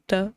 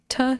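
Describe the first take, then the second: First: The t is made with the tongue tip curled back. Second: The t is made with the tongue tip forward. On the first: "you would curl your tongue tip back more than you're used to" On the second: "the T that we have is like the T sound"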